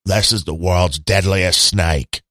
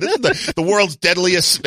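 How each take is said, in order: First: Lightly put-on Australian accent, lower and slow. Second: Said in the usual way. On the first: Mock Steve Irwin presenting a snake to podcast listeners, in a weak Australian accent. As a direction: play Steve Irwin with a loose, half-hearted Australian accent, drawn out. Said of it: "gotta do the Australian accent". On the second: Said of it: "Wait, gotta do the Australian accent".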